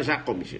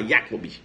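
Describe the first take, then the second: First: "Jacobs" with a Portuguese zh J; rival's wrong pronunciation. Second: "Jacobs" low, as YA-cobs; your correct pronunciation. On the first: Teacher mimics the rival candidate, wrong pronunciation. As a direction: say "Jacobs" as ZHA-cobs. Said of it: "Deixa ele falar". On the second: Teacher shows students the better version, German pronunciation. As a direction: say "Jacobs" with a Y sound. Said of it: "Você fala". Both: Shown as a demonstration.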